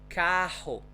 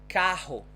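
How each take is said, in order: The two takes are said the same way.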